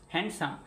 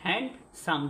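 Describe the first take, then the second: First: Said in the usual way. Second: হ্যান্ডসাম in two beats with a gap; two-syllable split. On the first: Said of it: "হ্যান্ড যোগ সাম". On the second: Shown as a demonstration. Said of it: "দুটো অক্ষর আছে না".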